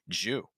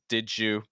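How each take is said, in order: First: Both words shrink into one syllable, jew. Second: The d and y merge into a j sound. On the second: "that d sound, because it's followed by a y, becomes like a j"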